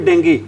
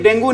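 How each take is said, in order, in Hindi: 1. शब्द 'ee' ध्वनि पर खत्म होता है। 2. शब्द 'oo' ध्वनि पर खत्म होता है। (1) "इसकी सही प्रोनाउंसिएशन होती है भी डेंगी" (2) "एक्चुअल में डेंगू नहीं होता"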